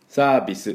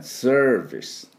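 First: It is said with Japanese katakana sounds. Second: It is said with English sounds, ending in s. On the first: The speaker calls it wrong. "サービスじゃない" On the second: The speaker calls it right. "V で、ER はチューズのね"

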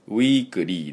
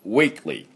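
First: An extra u vowel follows the k sound. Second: The k sound links straight into the l. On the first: The speaker calls it wrong. "k とl の間にu が入ってませんので、weekly でありません" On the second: The speaker calls it right. "くとl がくっつきます"

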